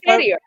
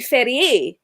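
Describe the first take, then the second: First: The surname is said with a Scottish pronunciation. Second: The surname is said with a French pronunciation. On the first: "but I say Ferrier" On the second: "a French person would say Ferrier"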